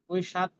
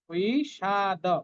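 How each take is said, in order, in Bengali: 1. শব্দটি একটি খালি d ব্যঞ্জন দিয়ে শেষ হয়। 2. শব্দটি একটি পূর্ণ da ধ্বনি দিয়ে শেষ হয়। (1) "বিষাদ কিন্তু নয়" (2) "দটাও পূর্ণ"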